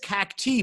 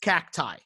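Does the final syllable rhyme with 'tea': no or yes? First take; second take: yes; no. First: The final syllable rhymes with 'tea'. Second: The final syllable does not rhyme with 'tea'. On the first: It is bent to fit a rhyme in a lyric. "because he's rhyming it with T" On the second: This is the standard plural of cactus. "That's a real word that is pronounced that way"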